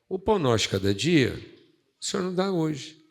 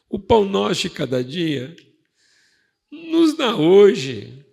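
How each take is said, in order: First: It is said as a confident affirmation. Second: It is said as a pleading request.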